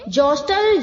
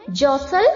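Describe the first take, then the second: First: The t sound is pronounced in the middle. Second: The t sound is left silent in the middle. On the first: The speaker calls it wrong. "ऐसे बिल्कुल नहीं बोलना है" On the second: The speaker calls it right. "टी silent है"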